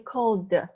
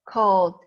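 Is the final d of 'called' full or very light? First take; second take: full; light. First: The final d sound is fully pronounced. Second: The final d sound is very light. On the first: The speaker calls it wrong. "you don't really say called" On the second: The speaker calls it right. "Very light"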